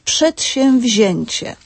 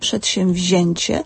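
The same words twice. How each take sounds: First: An early syllable also gets a weaker stress. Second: Only the second-to-last syllable is stressed. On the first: "dodatkowym takim niepełnym akcentem, jak gdyby połówką akcentu" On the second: "akcentujemy drugą sylabę od końca"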